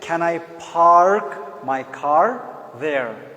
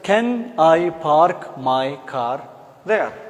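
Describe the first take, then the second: First: It is spoken with an American accent. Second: It is spoken with a Pakistani accent. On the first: "American will say" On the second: "Normal accent in Pakistani accent"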